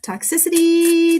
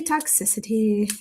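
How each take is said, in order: First: High, slow, louder spooky reading; eerie drawn-out card reading; dramatic spooky reading. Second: Said in the usual way. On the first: Shown as a demonstration. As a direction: intone it like an ominous oracle.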